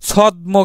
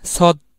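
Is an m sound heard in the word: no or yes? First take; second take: yes; no. First: The m sound after d is pronounced. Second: No m sound; the d is doubled and nasal. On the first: The speaker calls it wrong. "আমরা ছদ্ম কিন্তু উচ্চারণ করি না" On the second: The speaker calls it right. "এখানে কিন্তু আমরা ম উচ্চারণ করতেছি না"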